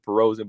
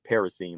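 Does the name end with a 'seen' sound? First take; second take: No; Yes. First: The name does not end with 'seen'. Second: The name ends with 'seen', like kerosene. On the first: This is how the speaker used to say it. "I always called it" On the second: This is how others say it. "they would pronounce it Paracine, like kerosene"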